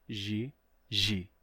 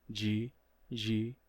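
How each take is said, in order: No difference in how they are said.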